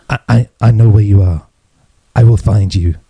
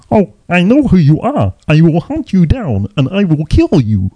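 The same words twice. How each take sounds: First: Lightly imitated film threat, a bit lower; a hint of the Taken speech, measured; Liam Neeson. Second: High puppet-frog voice making a threat; Kermit the Frog. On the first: Quoting the speech from Taken, lightly imitated film threat. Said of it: "that speech that Liam Neeson does". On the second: Acted. Dad teasing his kids with Taken speech, high froggy voice. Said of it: "trying to talk like Kermit".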